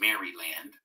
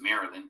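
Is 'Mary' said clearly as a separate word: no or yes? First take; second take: yes; no. First: It is said as two clear words, Mary land. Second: It is said as one reduced, blended word. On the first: This shows the name means the land of Mary. The speaker calls it right. "but it's Maryland" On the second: This is the everyday way people say it. The speaker calls it wrong. "we pronounce it Maryland"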